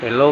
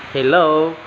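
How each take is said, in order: First: Said in the usual way. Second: HELLO with a drawn-out last syllable; individual intonation. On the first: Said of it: "punya gaya tersendiri ketika mengucapkannya". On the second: Shown as a demonstration. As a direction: stretch the end of HELLO in a personal style. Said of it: "perbedaan intonasi dan gaya bahasa tersendiri".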